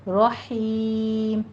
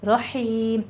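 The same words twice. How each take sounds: First: رحیم very slow, light ha from the mid throat. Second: رحیم with a light ha from the mid throat; رحیم with a thin throat ha. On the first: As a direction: stretch رحیم with a thin throat ha. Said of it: "باریک پڑھنا ہے". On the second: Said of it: "ہا وسط حلق سے باریک". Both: Shown as a demonstration.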